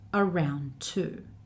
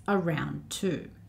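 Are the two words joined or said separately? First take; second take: joined; joined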